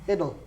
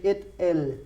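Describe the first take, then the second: First: The word is run together, L almost swallowed. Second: The word is split, with a clear L. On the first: The speaker calls it right. "I almost swallow the L" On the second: The speaker calls it wrong. "I don't say it, el"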